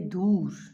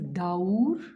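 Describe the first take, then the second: First: The vowel is a single plain u. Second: The vowel glides as a diphthong, au. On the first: This is the everyday colloquial pronunciation. "in colloquial they say dur" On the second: This is the formal Quranic pronunciation. "The first word is daur"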